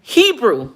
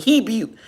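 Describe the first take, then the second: First: "Hebrew" as HEE-broo, careful and higher; Hebrew finally right. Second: Hebrew said as hib-you, stumbling; mispronounced Hebrew. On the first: Finally getting the word right for viewers, careful. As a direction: land "Hebrew" with a proud clear r. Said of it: "There we go". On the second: Trying to say Hebrew for viewers, stumbling. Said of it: "Y'all know I can't enunciate". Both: Shown as a demonstration.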